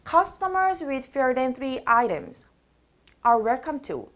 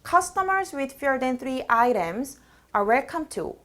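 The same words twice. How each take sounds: First: Speech stops abruptly in the middle of the sentence. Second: Only a brief breath is taken mid-sentence. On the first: The speaker calls it wrong. "뚝 끊어져요. 문장 중간에" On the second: The speaker calls it right. "이렇게 숨만 쉬어주시면 돼요"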